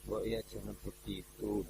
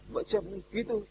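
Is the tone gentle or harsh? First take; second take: gentle; harsh. First: It is said in a gentle, soft tone. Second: It is said in a somewhat harsh tone.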